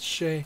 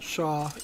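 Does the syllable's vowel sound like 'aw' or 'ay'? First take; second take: ay; aw. First: The syllable is said with an 'ay' vowel. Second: The syllable is said with an 'aw' vowel. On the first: The speaker calls it right. "it's Shay" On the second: The speaker calls it wrong. "It's not Shaw"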